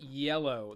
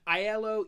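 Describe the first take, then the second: First: The name sounds like the word 'yellow'. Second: The name does not sound like 'yellow'. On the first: The speaker calls it right. "Yellow like the color" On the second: The speaker calls it wrong. "not Aiello"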